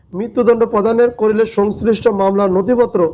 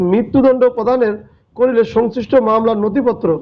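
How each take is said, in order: Both takes have the same delivery.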